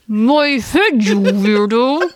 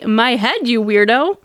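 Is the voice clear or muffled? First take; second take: muffled; clear. First: It is said in a muffled, squished voice. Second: It is said in a clear, normal voice.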